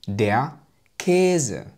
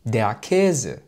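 First: The words are said slowly. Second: The words are said quickly. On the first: "ومرة أخرى بشكل بطيء" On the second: "مرة بشكل سريع"

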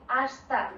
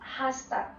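First: The word starts straight on the vowel, no h. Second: The word starts with an audible breathy h sound. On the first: The speaker calls it right. "Do you hear that I say hasta" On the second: The speaker calls it wrong. "not hasta"

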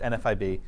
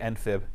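First: It is spelled out letter by letter. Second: It is pronounced as a single word. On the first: The speaker calls it right. "it's NFIB. ... it's not a word" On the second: The speaker calls it wrong. "please don't say NFIB"

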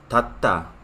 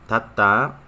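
The two takes are said the same way.

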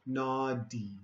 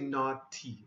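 First: The middle consonant sounds like a D. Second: The middle consonant sounds like a T. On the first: "this T, sometimes we say with a D sound" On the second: "You can say naughty also"

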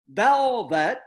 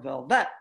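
First: The stress is on the first syllable. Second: The stress is on the second syllable. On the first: "I'd accent the first syllable in the first word" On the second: "and then on the second"

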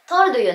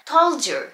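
First: The two words are said separately. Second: The words link, d and y blending into 'j'. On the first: The speaker calls it wrong. "told you なんて聞こえません" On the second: The speaker calls it right. "ここがつながってdu がジュジュみたいな感じの音になっていきます"

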